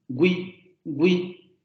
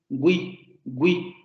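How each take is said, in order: The two takes are said the same way.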